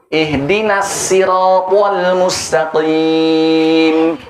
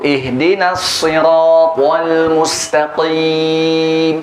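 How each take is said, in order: First: The s in sirat is a light plain s. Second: The s in sirat is a heavy emphatic s. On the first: "Sekarang dengan sin riwayat kumbul" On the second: "Kita baca dengan shad dulu"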